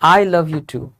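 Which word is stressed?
I. The word I carries the strongest stress. The speaker also loves the person, like someone else does. "मैं भी तुमसे प्यार करता हूँ"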